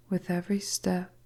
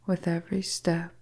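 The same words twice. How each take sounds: The two takes are said the same way.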